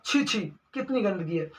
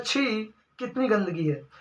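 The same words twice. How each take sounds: First: छी, छी pressed in disgust; stress on doubled छी. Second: Said in the usual way. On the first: Shown as a demonstration. Teacher showing strong disgust with छी, छी. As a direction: push the repeated छी, छी hard. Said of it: "जोर दबाव दे के बोलना चाह रहा है". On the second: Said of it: "ऐसे भी बोला जा सकता है".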